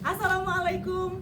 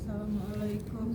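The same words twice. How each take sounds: First: The greeting is said loudly with strong energy. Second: The greeting is said weakly with little energy. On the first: Listeners pay attention at once. The speaker calls it right. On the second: Listeners lose interest. The speaker calls it wrong. "jangan jangan gitu bu"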